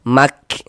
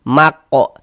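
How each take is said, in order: First: The k is released with flowing breath, no echo. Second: The k is bounced with an echoing vowel after it. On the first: The speaker calls it right. "ada nafas yang mengalir ketika kita mengucapkannya" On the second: The speaker calls it wrong. "Jangan dikol-kolahkan, jangan dipantulkan begitu"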